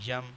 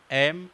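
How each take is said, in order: First: "یم" with a y-glide in front, yem; wrong "یم" beginning on a y sound; mispronounced M. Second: "ایم" starting on a clean e vowel, em; correct letter M. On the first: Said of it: "یہ pronunciation غلط ہے". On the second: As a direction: clear "ایم" with no y-glide. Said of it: "ایم کی جگہ یم". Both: Shown as a demonstration.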